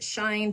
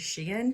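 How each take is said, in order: First: The name sounds like the English word 'shine'. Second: The name does not sound like 'shine'. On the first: The speaker calls it wrong. "Some people pronounce it Shine" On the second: The speaker calls it right. "but it's actually Shein"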